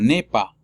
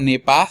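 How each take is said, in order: First: The final S of pas is silent. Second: The final S of pas is pronounced. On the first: The speaker calls it right. "sino nepa" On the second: The speaker calls it wrong. "No leo ne pas"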